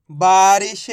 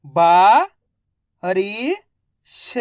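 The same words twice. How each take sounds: First: Said in the usual way. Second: बा-रि-श drawn out slowly, each syllable apart; teacher sounding out बा-रि-श. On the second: Shown as a demonstration.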